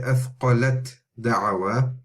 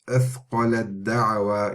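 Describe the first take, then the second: First: The t is pronounced separately before the d. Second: The t merges completely into the following d. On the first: The speaker calls it wrong. "You don't say" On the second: The speaker calls it right. "you miss the ta completely because the sound gets merged into and assimilated into the dal"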